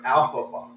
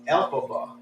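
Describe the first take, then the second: First: The name begins with an 'al' sound. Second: The name begins with an 'el' sound. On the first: The speaker calls it wrong. "I was calling her" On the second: The speaker calls it right. "her name is actually"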